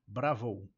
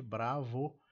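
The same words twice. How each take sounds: First: "Bravo" ending in an OU glide; vocalised ending. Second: "Bravo" ending in a simple O; plain O ending. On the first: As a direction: punch "Bravo", closing the final O into a U. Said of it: "tem uma vocalização aqui no finalzinho". ("Bravo" com OU no finalzinho) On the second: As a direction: say "Bravo" with no U glide at the end. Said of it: "não é simplesmente Bravo". ("Bravo" com O final simples) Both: Shown as a demonstration.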